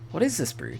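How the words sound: The pitch pattern sounds odd and misplaced. The speaker calls it wrong.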